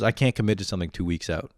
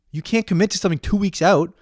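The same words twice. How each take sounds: First: Said in the usual way. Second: High-pitched incredulous echo; furious disbelief. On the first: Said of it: "He goes". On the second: Retold or imitated. Ranting at the friend who can't commit, incredulous fury. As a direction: throw it back as an outraged question. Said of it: "I was so fucking furious".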